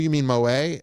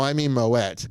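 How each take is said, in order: First: The final T is silent. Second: The final T is sounded. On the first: The name is treated as French. The speaker calls it wrong. "they think, oh, it's French champagne. It must be Moet" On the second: The name is treated as Dutch. The speaker calls it right. "which is the actually correct pronunciation... they pronounce the T's"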